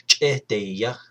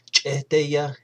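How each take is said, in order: First: Cheteya with a drawn-out middle syllable; third-person form. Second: Cheteya with a short middle syllable; first-person form. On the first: Teacher gives the he or she form, long-vowelled Cheteya. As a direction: lengthen the middle vowel of "Cheteya", ending on a rise. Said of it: "which is he or she is tired". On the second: Teacher gives the I'm tired form, short-vowelled Cheteya. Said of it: "instead of saying, "I'm, I'm tired". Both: Shown as a demonstration.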